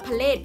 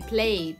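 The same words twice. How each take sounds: First: The p and l are split apart. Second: The p and l are blended together. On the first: The speaker calls it wrong. "เราจะไม่อ่านว่า" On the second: The speaker calls it right. "เราอ่านเป็นควบกล้ำไปเลย"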